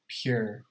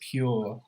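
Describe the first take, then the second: First: The word ends with an r sound. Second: The word ends without an r sound. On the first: "in American English we put uh, the uh, r sound with them" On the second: "some of these sounds are distinctly British"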